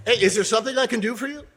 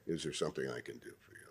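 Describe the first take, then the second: First: Loud, high and quick, calling out to help; bright, loud offer of help; loud friendly offer. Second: Low, quiet and quick, barely looking up; bored booth clerk. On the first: Coach calls out a loud offer to the fallen. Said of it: "That's a little loud". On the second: Clerk in the booth brushes off the waiting visitor, bored and low. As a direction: toss it off like a clerk checking the watch. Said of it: "until they look up and say". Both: Shown as a demonstration.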